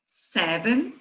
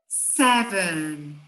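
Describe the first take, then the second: First: The word is said at a normal pace. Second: The word is said slowly and deliberately.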